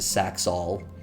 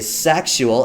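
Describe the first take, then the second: First: The word is said with two syllables. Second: The word is said with three syllables. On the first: The speaker calls it right. "it sounds better than Saxol" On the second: The speaker calls it wrong. "I know I'm saying it wrong"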